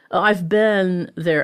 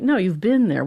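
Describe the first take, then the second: First: "been" said with the short e of Ben, slowly; Northern "been" like Ben. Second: "been" said with a short i, rhyming with bin; corrected "been" like bin. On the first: Retold or imitated. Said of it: "the same way as the man's". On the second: Acted. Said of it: "I'm like".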